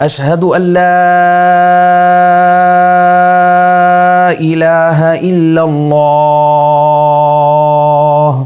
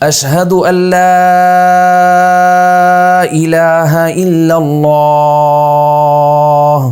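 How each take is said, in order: Both takes have the same delivery.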